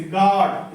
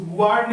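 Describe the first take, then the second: First: "गॉड" with long open vowel, no U; silent U. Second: "गुआर्ड" with the U sounded; wrong pronunciation. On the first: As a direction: model "गॉड" as "gaad", U dropped. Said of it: "इसको गुआर्ड नहीं बोलेंगे". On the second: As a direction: show the mistake "गुआर्ड", "gu-ard". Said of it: "गुआर्ड नहीं बोलेंगे". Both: Shown as a demonstration.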